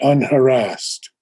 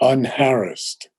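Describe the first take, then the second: First: It is pronounced in a non-British way. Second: It is pronounced in the British way. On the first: The speaker calls it wrong. "not unharassed" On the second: The speaker calls it right. "I believe the British pronunciation is unharassed"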